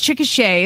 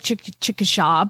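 First: The name is said with the local pronunciation. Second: The name is said the way it is spelled. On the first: The speaker calls it right. "is how you pronounce it here" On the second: The speaker calls it wrong. "It looks like Chickasha"

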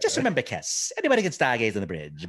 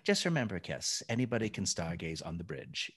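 First: It is said with more flair and energy. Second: It is said in a sedate, low-key way. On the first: "So I do more. There's more flair. I zhuzh it" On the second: "kind of sedate in his delivery. Like he's really low key"

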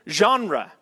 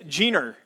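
First: The word is said in a haughty, pretentious way. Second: The word is said in a plain, casual way.

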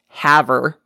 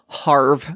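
First: The name is said as two syllables. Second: The name is said as one syllable. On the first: The speaker calls it right. "in actuality, it is pronounced Haver" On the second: The speaker calls it wrong. "I said that Rochelle was from Harve"

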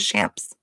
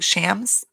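First: The name has a p sound before the s. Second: The name has no p sound before the s. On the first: The speaker calls it wrong. "Maybe I'm adding the P on there" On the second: The speaker calls it right. "I don't think there's a P like how it's like spelled"

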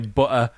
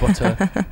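First: The middle t sound is dropped. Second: The middle t sound is clearly pronounced. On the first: The speaker calls it wrong. "so I don't say butter" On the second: The speaker calls it right. "dropping consonants in so I don't say butter, I say butter"

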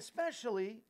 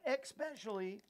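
First: It is said in the speaker's plain accent. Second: It is said in an Arkansas-style Southern accent.

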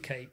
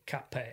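First: The name is said with one syllable. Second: The name is said with two syllables. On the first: This is the accepted practice here. "but we'll go with Cape" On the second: This is how it is said in Japan. "in Japan, they will say Cape"

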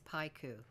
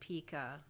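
First: The first vowel sounds like 'eye'. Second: The first vowel sounds like 'ee'. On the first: The speaker calls it right. "but it's paiku" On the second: The speaker calls it wrong. "We've been pronouncing it pica"

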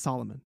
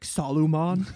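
First: The name is said with its standard pronunciation. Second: The name is said sounding like Saruman. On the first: The speaker calls it right. "it's Solomon. Why are you saying it like that?" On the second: The speaker calls it wrong. "I was pronouncing it like Saruman from the Lord of the Rings"

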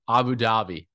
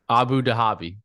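First: The H in Dhabi is soft, barely heard. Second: The H in Dhabi is strongly pronounced. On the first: The speaker calls it right. "There you go" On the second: The speaker calls it wrong. "let's not emphasize the H"

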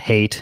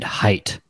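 First: The vowel sounds like the one in 'eight'. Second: The vowel sounds like the one in 'kite'. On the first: The speaker calls it right. "I didn't know it was even pronounced Hate until I listened to the audiobook" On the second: The speaker calls it wrong. "I always pronounced it height"

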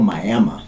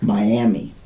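First: The name is said the older local way. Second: The name is said the modern standard way. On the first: This is how the town was called decades ago. "in those days, it was called Miami" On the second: This is how the town is called today. "as opposed to Miami"

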